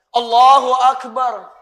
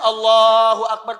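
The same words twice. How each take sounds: First: It is said with a trembling, moved voice. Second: It is said plainly, with a steady voice.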